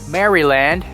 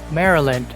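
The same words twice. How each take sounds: First: It is pronounced the way it is spelled. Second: It is pronounced the standard, natural way. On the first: The speaker calls it wrong. "instead of pronouncing it Maryland" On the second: The speaker calls it right. "it's Maryland"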